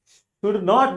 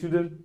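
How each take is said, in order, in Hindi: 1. इसे दो पूरे शब्दों की तरह बोला जाता है। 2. इसे एक संक्षिप्त शब्द की तरह बोला जाता है।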